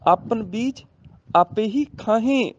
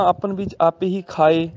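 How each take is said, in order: First: High, slow line with ਖਾਹੇ as "kha-hen"; plural nasal ending. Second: Line ending in ਖਾਏ as "kha-e", no h; singular oral ending. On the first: Teacher showing the plural, ਖਾਹੇ with nasal ending. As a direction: sound h and nasal in final ਖਾਹੇ. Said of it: "ਬਹੁਵਚਨ ਆ ਗਏ ਨਾ". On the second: Teacher showing the singular misreading, ਖਾਏ without h or nasal. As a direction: keep final ਖਾਏ free of nasal. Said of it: "ਈੜੀ ਨੂੰ ਸਿਆਰੀ ਹੋਏਗੀ". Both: Shown as a demonstration.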